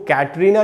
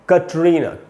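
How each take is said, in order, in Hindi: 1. पहला स्वर चौड़े 'ai' जैसा है। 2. पहला स्वर छोटे 'a' जैसा है। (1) "इसको कैटरीना नहीं पढ़ना है" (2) "इसको पढ़ते हैं कटरीना, क होगा"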